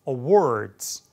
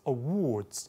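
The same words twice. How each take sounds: First: It has an American accent with less lip rounding. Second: It has a British accent with rounded lips. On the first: "미국식 이렇게 했는데" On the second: "영국식으로 ... 입술 훨씬 더 둥글게 모아서"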